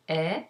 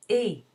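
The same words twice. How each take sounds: First: "E" said as open eh, as in air. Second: "E" as closed é, tongue high and lips spread; higher-pitched, louder, tight French "E". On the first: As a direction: let "E" open out into a French è. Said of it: "as in air". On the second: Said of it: "The more closed version of E". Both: Shown as a demonstration.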